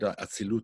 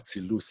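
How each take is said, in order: First: It is said in a modern Israeli pronunciation. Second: It is said in a traditional Hasidic pronunciation. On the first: "One is more of a, an Israel type, an Israeli type pronunciation"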